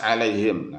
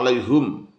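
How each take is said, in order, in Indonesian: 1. Huruf h diikuti vokal i. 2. Huruf h diikuti vokal u. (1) "Dengan huruf H dibaca kasroh dan huruf mim dibaca sukun" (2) "haknya dibaca dhammah"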